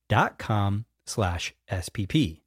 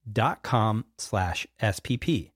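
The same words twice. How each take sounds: The two takes are said the same way.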